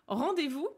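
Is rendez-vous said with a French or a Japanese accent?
French. It is said with a French accent and a V. "le mot français rendez-vous"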